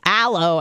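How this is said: It is said in an American accent. The speaker's own way of saying it. "they would hear me say weird word, like just aloe"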